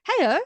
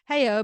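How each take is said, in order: First: Put-on high, loud baby greeting; imitated baby. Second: Put-on loud echo of a baby's greeting, less high; talking cat echo. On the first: Baby greeting a talking cat app, imitated high baby voice. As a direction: pipe up like a baby saying hello. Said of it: "this baby who's playing with Hello Tom". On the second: App cat repeating the baby, imitated loud echo. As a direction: parrot it back like a talking toy cat. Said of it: "Tom comes back and kind of says".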